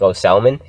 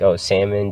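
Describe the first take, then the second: First: Imitating parents saying "salmon" as SAL-mun; "salmon" with an audible L; L pronounced in salmon. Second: Said in the usual way. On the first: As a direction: sound the L in "salmon", as a question. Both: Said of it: "people who pronounce the L in salmon".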